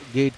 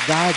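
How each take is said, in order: First: The name is one short syllable with an 'e' vowel. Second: The name is one long syllable with 'ar' vowel. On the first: Some people say it this way. "उन्हें कुछ लोग गेड कहते हैं" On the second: This is how it is said in Danish. "जो डेनिश उच्चारण है उसमें गार्ड"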